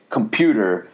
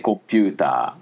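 First: It is said with a plain English accent. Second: It is said with a Japanese accent. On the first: "if you say them with perfect English pronunciation" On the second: "it almost sounds like I'm making fun of a Japanese speaker of English"

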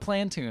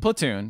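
First: An n sound comes before the t. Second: No n sound comes before the t. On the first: The speaker calls it wrong. "It's like a plantain" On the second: The speaker calls it right. "Platoon, yes"

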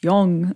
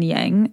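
First: It has a non-westernized pronunciation. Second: It has a westernized English pronunciation. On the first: The speaker calls it right. "but it's yang" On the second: The speaker calls it wrong. "I want to say yin and yang so bad"

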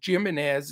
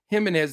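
First: The name begins with an English J sound. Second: The name begins with an H sound. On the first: A mocking name used because the player stopped hitting. "we called him Jimenez" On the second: The player's proper name. "that H pronunciation"

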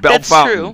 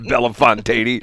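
First: The name is said the local way. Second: The name is said the outsider way. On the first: The speaker calls it right. "It's Bellefontaine" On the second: The speaker calls it wrong. "no, it's not Bellefontaine"

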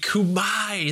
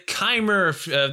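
First: It is said as two syllables, ending in 'my'. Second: It is said as one syllable, ending in 'mer'. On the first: The speaker calls it right. "I learned it's pronounced Kumai" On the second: The speaker calls it wrong. "That's how I used to pronounce it"

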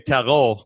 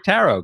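First: The word is said the French-sounding way. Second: The word is said the American way. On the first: "I've never heard anyone say tarot. I mean, maybe that's the French pronunciation" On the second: "here in America, I think we say tarot cards"

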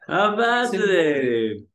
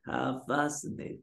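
First: It is said in the speaker's ordinary accent. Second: It is said with a German accent.

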